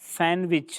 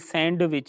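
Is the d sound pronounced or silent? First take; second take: Silent; Pronounced. First: The d sound is silent. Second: The d sound is pronounced. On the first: The speaker calls it right. "सैंडविच में भी डी जो है वो खामोश होता है" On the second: The speaker calls it wrong. "ये सैंडविच नहीं है"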